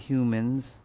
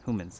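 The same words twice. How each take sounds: First: It begins with a 'hyoo' sound. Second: It begins with a 'hoo' sound.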